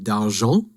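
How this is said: The name is said with a French pronunciation.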